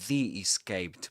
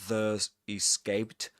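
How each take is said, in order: First: 'The' is said with a long vowel, 'thee'. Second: 'The' is said with a schwa, 'thuh'. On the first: The speaker calls it right. "pronounced as the right before vowel sounds" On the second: The speaker calls it wrong. "not The Escaped"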